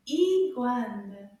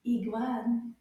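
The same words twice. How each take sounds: First: Iguane slowly, both syllables loud and clear; slower take. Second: Iguane said a little quicker; slightly quicker model of Iguane; a bit faster. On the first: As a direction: draw out Iguane for learners to copy. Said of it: "a little bit faster". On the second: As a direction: say Iguane more briskly, syllables closer together. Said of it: "Can you repeat with me a little bit faster". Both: Shown as a demonstration.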